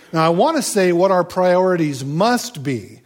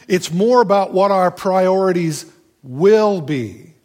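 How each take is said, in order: First: "must" punched as the key word, said with a light laugh; stress on must. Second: "will" carries the weight, a little higher and louder; stress on will. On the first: Preacher shows the wrong stress, hitting "must". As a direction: lean on "must" as if it were a rule. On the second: Preacher corrects himself, stressing "will" instead of "must". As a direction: lean on "will" as a promise, not a rule. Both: Shown as a demonstration. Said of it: "that puts the emphasis on the wrong syllable".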